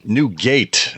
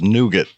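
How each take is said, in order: First: Both syllables are full, like 'new gate'. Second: The second syllable is reduced, like 'noo-git'. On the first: "as uh, it's spelled" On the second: "perhaps colloquially pronounced as nougat"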